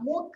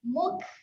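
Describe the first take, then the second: First: The final k is released with a clear bounce. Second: The final k is released with a puff of air. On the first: The speaker calls it wrong. "kalau saya bunyikan lantun mukramin. Ah, bunyi dia jelas. Ah, muk, salah eh" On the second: The speaker calls it right. "Yang ni dia keluar angin saja"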